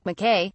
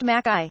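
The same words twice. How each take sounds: First: Said in the usual way. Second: "Mackay" said slowly as the pronunciation; name's stated pronunciation. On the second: A narrator's reading. Narrator showing listeners how the pilot's name sounds, "Mackay" pronounced carefully. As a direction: say "Mackay" as the spoken form of McKay. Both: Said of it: "pronounced Mackay".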